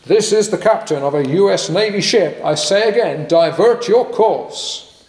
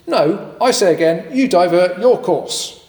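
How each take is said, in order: First: Insistent American navy captain; American accent. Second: Said in the usual way. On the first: Acted. US captain repeating his order to Canadians, American accent. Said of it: "I'll do my best American accent". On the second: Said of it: "can't do a Canadian one".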